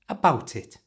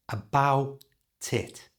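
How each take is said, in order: First: It is said quickly in one breath. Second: It is said slowly, syllable by syllable.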